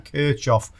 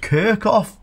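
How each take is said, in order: First: The name is said the German way. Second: The name is said the anglicized way. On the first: "he pretty damn well knows how to pronounce it" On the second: "some people call this Kirchhoff"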